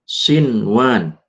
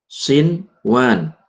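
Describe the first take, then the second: Both takes have the same delivery.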